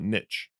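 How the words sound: The word is said with a North American pronunciation. "or North Americans call it niche"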